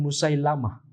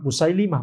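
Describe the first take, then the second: First: The third syllable has an a vowel. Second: The third syllable has an i vowel. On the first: The speaker calls it wrong. "bukan Musailamah" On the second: The speaker calls it right. "Musailimah yang benar ya"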